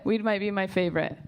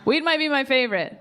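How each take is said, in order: First: Said in the usual way. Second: Louder laughing take. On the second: Shown as a demonstration. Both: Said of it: "repeated line Weed might be my favorite".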